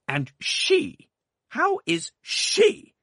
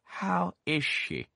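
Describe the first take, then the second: First: Loud, high, very slow sharp demand. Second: Slow, high, stern question; stern aunt. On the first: Aunt sharply demanding news of the baby, loud. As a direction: bite each word out. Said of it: "said my aunt sharply". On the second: Aunt demanding news from the doctor, stern and slow. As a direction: demand it slowly. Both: A narrator's reading.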